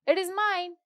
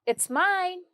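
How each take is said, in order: First: "It is" is said as two full words. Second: "It is" is contracted to "it's".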